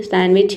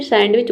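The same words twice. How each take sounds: First: सैंडविच as "san-wich", D dropped; English silent D. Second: सैंडविच as "sand-wich", with the D audible; Hindi-style sounded D. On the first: Teacher shows the English way, silent D. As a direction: say सैंडविच with N straight into W. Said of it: "English में इसे". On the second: Teacher shows the Hindi way, D pronounced. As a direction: say सैंडविच with a D before the W. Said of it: "Hindi में इसे". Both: Shown as a demonstration.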